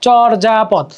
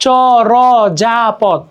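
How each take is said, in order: First: চর্যাপদ as "chor-ja-pod", syllables joined; joined-up pronunciation. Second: চরযাপদ very slow, "cho-ro-ja-pod"; syllable-by-syllable pronunciation. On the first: Teacher putting the word together, চর্যাপদ as "chor-ja-pod". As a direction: say চর্যাপদ as one measured word. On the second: Teacher showing how we pronounce it, চরযাপদ slowly broken up. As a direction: stretch each syllable of চরযাপদ separately. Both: Shown as a demonstration. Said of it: "আমরা যখন এটা উচ্চারণ করতেছি".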